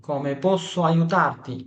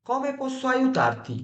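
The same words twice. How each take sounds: First: Very slow question in usual pitch; slowly enunciated classroom repeat; slow teaching repeat. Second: Slow, high Italian question; high, stretched-out teaching example; high-pitched model phrase. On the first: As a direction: spell it out slowly for learners. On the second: Teacher models offer of help. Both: Shown as a demonstration.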